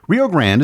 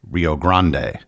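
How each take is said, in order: First: The name is said with English vowels and sounds. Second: The name is said with Spanish vowels and sounds. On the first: "a very common English pronunciation" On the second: "That is the Spanish pronunciation"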